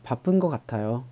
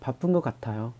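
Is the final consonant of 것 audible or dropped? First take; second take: dropped; dropped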